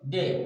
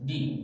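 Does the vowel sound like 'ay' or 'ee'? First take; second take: ay; ee. First: The vowel sounds like 'ay' in day. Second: The vowel sounds like 'ee' in see. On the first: "ডেও হবে" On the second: "আবার কি হবে ... ডি"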